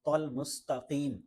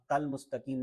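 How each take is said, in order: First: "تل" as a heavy, rounded tol; thick to. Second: Quick "تل مستقیم" with light t; wrong thin ta. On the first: Teacher models the correction, emphatic t in "تل". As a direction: thicken "تل" and lengthen "مستقیم". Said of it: "بلکہ تل مستقیم". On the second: Teacher shows the mistake, thin t in "تل". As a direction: say "تل" as tal with Urdu t. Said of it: "تل مستقیم نہیں". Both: Shown as a demonstration.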